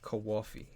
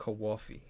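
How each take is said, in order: First: It is said with an East Coast accent. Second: It is said with an East Coast accent.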